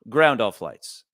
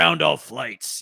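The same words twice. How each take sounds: First: It is said in a plain, low-key voice. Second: It is said in a dramatic, gruff voice.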